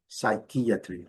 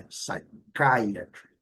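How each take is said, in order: First: Wrong "psychiatry" as sai-ki-A-tri; pronúncia errada. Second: Slow "psychiatry" as sai-KAI-a-tri; pronúncia certa. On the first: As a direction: say "psychiatry" with "ki", as a Portuguese speaker might. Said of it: "o risco de pronunciar errado". ("psychiatry" errado, soando "sai-qui-atri") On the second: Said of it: "mas não é psychiatry". ("psychiatry" devagar, soando "sai-CAI-atri") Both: Shown as a demonstration.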